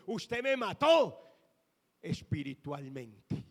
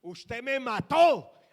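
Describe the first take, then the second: First: Tearful accusation. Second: Loud, slow, anguished cry; tearful accusation. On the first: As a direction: drag it out as her weeping voice. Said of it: "me dijo, llorando". (acusación dolida y lenta, imitando el llanto) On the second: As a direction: wail it out like she did through tears. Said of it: "me dijo así, llorando". (acusación llorosa, fuerte y lenta) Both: Retold or imitated.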